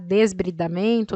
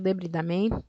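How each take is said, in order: First: An s sound comes before the b. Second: No s sound comes before the b. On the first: "Tanto faz o, a, o jeito de falar" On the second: "Tanto faz o, a, o jeito de falar"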